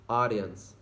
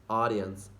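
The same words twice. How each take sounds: The two takes are said the same way.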